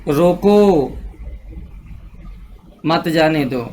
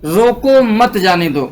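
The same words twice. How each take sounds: First: रोको left hanging, long silence, then a lower मत जाने दो; long break between रोको and मत; comma pause after रोको. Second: Said in the usual way. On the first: Shown as a demonstration. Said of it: "रोको के बाद कॉमा लगा दिया गया". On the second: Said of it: "और रोको के बाद कॉमा लगा दिया".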